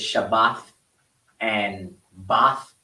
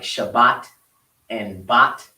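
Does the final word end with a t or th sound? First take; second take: th; t. First: The final word ends with a th sound. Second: The final word ends with a hard t sound. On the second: "they don't do the tha as much as a as they do the ta"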